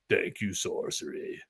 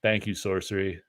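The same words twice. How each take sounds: First: Slow, soft breathy whisper of thanks; dark whisper. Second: A lightly voiced cool sign-off, a bit softer; just hint at a laid-back artist's thanks. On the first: Retold or imitated. Artist's dark clip voiced as a slow whisper. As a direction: hush it like a dark force thanking you. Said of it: "like, this dark force". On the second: Streamer mimics a second artist's cool sign-off, lightly. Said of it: "Brian Smith does this cool, like, thing".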